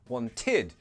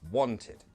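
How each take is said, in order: First: The stress is on the last syllable. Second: The stress is on the first syllable. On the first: The speaker calls it wrong. "you're stressing the end syllable and it's confusing. So it's not wanted" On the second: The speaker calls it right. "the ed, it's never stressed"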